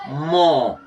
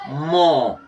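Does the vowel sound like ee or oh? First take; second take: oh; oh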